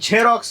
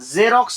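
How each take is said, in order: First: The word begins with an aspirated jh sound. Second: The word begins with a soft z sound. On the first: The speaker calls it wrong. "झेरॉक्स नाही" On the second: The speaker calls it right. "त्यामुळे त्याला झेरॉक्स म्हणायचं"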